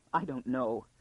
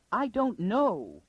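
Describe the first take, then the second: First: Small, understated whimper. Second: High, drawn-out wail. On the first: Lady answers the whispering girl, a mild whimper. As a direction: whimper it back with little force. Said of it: "she whimpered back". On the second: Lady answers the girl about her uncle, wailing. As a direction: wail it slowly at a raised pitch. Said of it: "wailed the other". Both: A narrator's reading.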